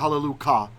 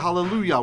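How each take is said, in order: First: The word ends with a 'kah' sound. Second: The word ends with a 'yah' sound. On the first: The substitute form used outside prayer. The speaker calls it wrong. "We don't say Hallelujah, right? How silly would that sound?" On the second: The divine name is said in prayer. The speaker calls it right. "when we pray, we say Hallelujah"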